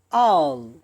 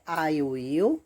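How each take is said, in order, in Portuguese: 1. As palavras se juntam em uma sílaba curta. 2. As duas palavras são ditas por completo. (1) "o I fica all" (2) "Ou é I will ou all"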